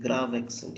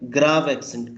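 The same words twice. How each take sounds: First: Grave accent said again, softly, as if to oneself; softer repeat. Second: Grave pressed firmly, with a falling tune; stressed word. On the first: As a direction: repeat it under your breath. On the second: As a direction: say Grave clearly, like you are correcting a student. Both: Shown as a demonstration. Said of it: "That grave accent is there".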